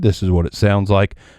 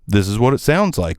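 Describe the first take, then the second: First: The voice sounds darker and muddier. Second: The voice sounds brighter and clearer. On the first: "I think that was the darkest of the bunch so far. Maybe the muddiest as well" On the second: "Didn't hate that"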